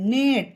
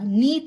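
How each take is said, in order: First: The vowel is a short 'e' sound. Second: The vowel is a long 'ee' sound. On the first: The speaker calls it right. "ई का उच्चारण ए हो जाता है" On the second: The speaker calls it wrong. "नीट नहीं होगा"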